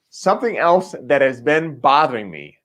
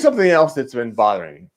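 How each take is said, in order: First: Each word is pronounced carefully and distinctly. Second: The words run together loosely and unclearly. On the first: The speaker calls it right. "I'm enunciating on purpose" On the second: The speaker calls it wrong. "I didn't enunciate that sentence very well the first time"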